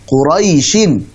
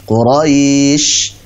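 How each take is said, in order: First: The word ends with a vowel and n. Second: The word stops on a bare sh sound. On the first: The reciter continues on to the next word. "Contohnya misalkan Quraisyin" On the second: The reciter stops at this word. "Shin ketika wakaf menjadi sh"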